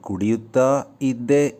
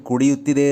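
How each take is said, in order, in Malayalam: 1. ഇത് രണ്ട് വേറിട്ട വാക്കുകളായാണ് പറയുന്നത്. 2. ഇത് ഒറ്റ വാക്കായാണ് പറയുന്നത്.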